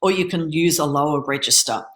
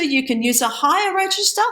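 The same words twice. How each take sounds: First: Dropped a little lower to demo a low register. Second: Pitched much higher to demo a high register. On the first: Coach contrasting with a lower speaking register. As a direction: settle down into a lower voice. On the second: Coach demonstrating a high speaking register. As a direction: lift the voice way up to show high register. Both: Shown as a demonstration.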